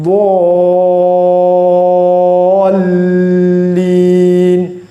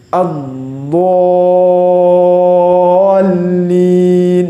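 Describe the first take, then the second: The two takes are said the same way.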